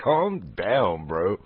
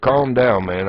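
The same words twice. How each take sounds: First: Much softer, muttered amused calm down; mumbled under the breath. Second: Said in the usual way. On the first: Retold or imitated. Retelling what he told the delivery guy, a soft amused calm down. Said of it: "But it's like".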